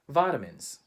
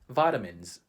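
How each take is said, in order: First: It is said with a Filipino English pronunciation. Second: The same.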